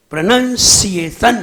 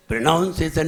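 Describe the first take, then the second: First: प्रोनाउंसिएशन loud, syllable by syllable, "pra-NAN-si-e-SHAN"; forceful, separated syllables in प्रोनाउंसिएशन, "si-e" clearly sounded; correct pronunciation. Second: प्रोनाउंसिएशन with "noun" in it, "pra-noun-se-san"; प्रोनाउंसिएशन run together as "pranaunsesan"; mispronounced. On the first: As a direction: punch each beat of प्रोनाउंसिएशन, with "nan" not "noun". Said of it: "इसको भी सही बोलना सीखिए". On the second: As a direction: say the middle of प्रोनाउंसिएशन like the word noun. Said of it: "प्रोनाउंसिएशन नहीं". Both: Shown as a demonstration.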